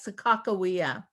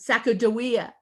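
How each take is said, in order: First: The middle consonant is a voiceless k sound. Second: The middle consonant is a voiced g sound. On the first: This is the name as the tribe itself says it. The speaker calls it right. "the tribe themselves say the na- her name is properly pronounced as" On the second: This is the name as most people know it. The speaker calls it wrong. "many people usually think of"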